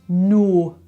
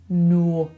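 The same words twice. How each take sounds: The two takes are said the same way.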